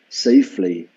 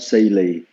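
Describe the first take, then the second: First: All consonant sounds in the word are pronounced. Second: A consonant sound in the word is dropped. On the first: The speaker calls it right. "So you missed quite a few uh, last consonants" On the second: The speaker calls it wrong. "not safely"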